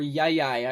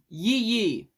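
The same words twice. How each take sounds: First: Yai Yai rhyming with "eye"; alternative title pronunciation. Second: Yi Yi as "yee yee"; unsure title pronunciation. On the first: Reviewer unsure of the film title, offering Yai Yai rhymed with "eye". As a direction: say Yai Yai as "yai yai", like "sky". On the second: Reviewer announcing the next film title, Yi Yi as "yee yee". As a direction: say Yi Yi with long ee vowels, "yee YEE". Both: Shown as a demonstration. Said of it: "I'm not sure how to pronounce it".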